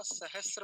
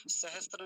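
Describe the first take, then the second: First: सहस्र as sahas-ra, no t; slow down on the s-r of सहस्र; correct form. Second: सहस्त्र with an intrusive t, sahastra; wrong form. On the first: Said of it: "होता है". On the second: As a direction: put a t before ra in सहस्त्र. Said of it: "सहस्त्र नहीं होता". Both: Shown as a demonstration.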